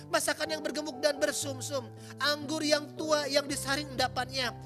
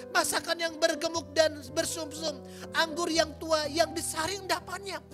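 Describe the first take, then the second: Both takes have the same delivery.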